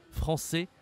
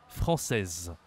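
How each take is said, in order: First: FRANÇAIS ending on an open è, final s silent; rising "français" with no closing consonant; masculine pronunciation. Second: FRANÇAISE with a sounded final z; lower, falling "française", held z at the end; feminine pronunciation. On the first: Teacher contrasting genders for a learner, masculine pronunciation. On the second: Teacher contrasting genders for a learner, feminine pronunciation. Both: Shown as a demonstration. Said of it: "la prononciation est différente".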